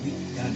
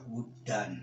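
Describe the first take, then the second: First: The first vowel is an 'i' sound. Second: The first vowel is an 'u' sound. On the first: This is the reading of other scholars. "Ulama yang lain dibaca widdan" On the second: This is the reading of most scholars. "Menurut jumhur ulama ahli qiraat itu dibaca wuddan"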